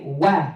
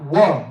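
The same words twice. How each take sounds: First: "wa" with a light, open a; light waw. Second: "wa" rounded toward "wo"; rounded waw. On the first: Teacher showing students the right sound, light open "wa". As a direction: open the vowel of "wa". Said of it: "we wanna say wa". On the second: Teacher showing the sound to avoid, "wa" rounded like "wo". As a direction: darken the vowel of "wa". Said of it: "not wa". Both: Shown as a demonstration.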